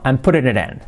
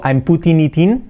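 First: "I'm putting it in" with soft r-like t, words run together; natural linked "I'm putting it in". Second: "I'm putting it in" with crisp t and separate words; overly careful "I'm putting it in"; careful hard t's. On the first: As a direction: flap the t in "putting", link "it in". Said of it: "no, I'm putting it in". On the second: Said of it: "Fijaos que no digo". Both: Shown as a demonstration.

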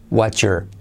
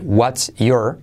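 First: "what's your" run together as "whatcher"; fuse "what's your" with a CH sound; linked what's your. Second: Said in the usual way. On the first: Shown as a demonstration. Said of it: "o what's your". ("what's your" unido como "whatcher") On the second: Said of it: "puedes decir what's your o".

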